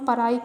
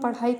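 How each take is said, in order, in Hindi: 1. बीच का व्यंजन सादा r ध्वनि है। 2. बीच का व्यंजन एक महाप्राण मूर्धन्य फ्लैप है। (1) "अड़ा की जगह बोलते हैं रा" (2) "अगर हम पढ़ाई कर रहे हैं"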